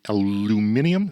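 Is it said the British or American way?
British. It is said the British way, five syllables.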